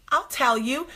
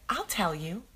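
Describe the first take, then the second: First: Put-on sweet, higher, poised kid voice; composed little girl. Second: Said in the usual way. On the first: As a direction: say it primly like an innocent child. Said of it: "composes herself, big blue eyes".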